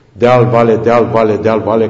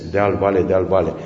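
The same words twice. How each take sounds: First: "deal, vale" chanted loud, louder on each "deal"; rhythmic deal vale. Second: "deal, vale" said softly, evenly paced, falling; quiet deal vale. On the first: Lecturer evoking Transylvanian hills, loud rhythmic chant. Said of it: "care s-a convertit în sintagma lui Blaga". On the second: Lecturer quoting Blaga's soul of Romania, soft and even. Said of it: "sintagma lui Blaga". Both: Shown as a demonstration.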